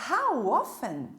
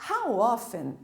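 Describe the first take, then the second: The two takes are said the same way.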